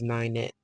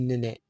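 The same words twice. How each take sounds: First: The name is said with an English-sounding first syllable. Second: The name is said with a French pronunciation. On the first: This is how the family member herself said the name. "but she always pronounced it as Ninette" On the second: This is the standard French form of the name. "In French, it'll be Ninette"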